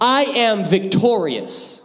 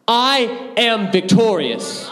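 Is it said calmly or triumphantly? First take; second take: calmly; triumphantly. First: It is said calmly, with ordinary energy. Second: It is said triumphantly, with high energy.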